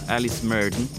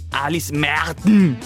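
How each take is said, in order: First: The name is said with an American accent. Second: The name is said with a German accent. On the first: The speaker calls it wrong. "l'ho sempre pronunciata con l'accento maragano" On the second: The speaker calls it right. "Lei è tedesca ... quindi sarebbe [name]"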